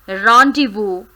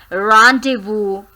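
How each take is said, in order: The two takes are said the same way.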